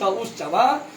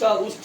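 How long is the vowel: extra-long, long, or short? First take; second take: extra-long; long. First: The vowel is drawn out about three times. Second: The vowel is held about twice as long. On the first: "जिसका तीन मात्रा होता है वो क्या होता है? प्लुत" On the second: "दो मात्रा दीर्घ"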